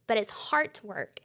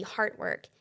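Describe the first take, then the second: First: Slow, leaning on "heart" as in "heart", not "hard"; stress on heart. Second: Said in the usual way. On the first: Shown as a demonstration. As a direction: draw out "heart work" slowly so heart is clear. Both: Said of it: "H E R T".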